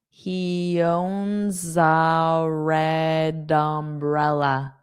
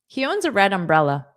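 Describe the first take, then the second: First: The sentence is spoken at a slow pace. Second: The sentence is spoken at a fast pace. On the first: "Now I'll say it slowly" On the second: "I will say it fast"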